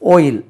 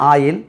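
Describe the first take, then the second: First: It is said with an English pronunciation. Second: It is said with a Tamil Nadu pronunciation. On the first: The speaker calls it right. "அங்கே ஓயில்" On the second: The speaker calls it wrong. "தமிழ்நாட்டில் ஆயில்"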